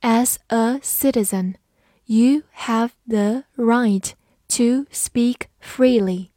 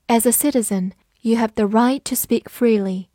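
First: Slow, word-by-word model reading. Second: Said in the usual way. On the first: Shown as a demonstration. Teacher models the citizen sentence for learners, slow reading. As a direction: space out each word for learners. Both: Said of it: "慢读一遍".

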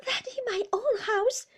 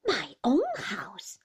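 First: High, loud aggrieved protest; complaining wife. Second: Slow, louder echo with weight on OWN; lightly voiced stern husband, drawing out "own"; Mister Murdstone challenging. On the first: Mother protesting to her husband about her house, high and aggrieved. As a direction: pitch it up as the wronged mother. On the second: Husband throwing his wife's words back, slowly challenging. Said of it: "repeated Mister Murdstone". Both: A narrator's reading.

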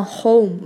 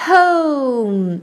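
First: HOME with a short unmoving o, no glide; mispronounced vowel. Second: HOME drawn out, o gliding to oo, then m; full diphthong. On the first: Teacher shows the mistake, mispronounced vowel. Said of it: "不是念成". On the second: Teacher flags the vowel, full diphthong. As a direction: stretch HOME and hum its m. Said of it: "注意". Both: Shown as a demonstration.

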